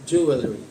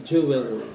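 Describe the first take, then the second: The two takes are said the same way.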